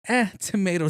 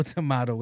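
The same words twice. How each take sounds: First: "tomato" said as to-MAY-to, high on Eh; "tomato" with the long ay sound, to-MAY-doh; tomayto. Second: "tomato." said as to-MAH-to, flat; "tomato." with the broad ah sound, to-MAH-doh; tomahto. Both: Shown as a demonstration.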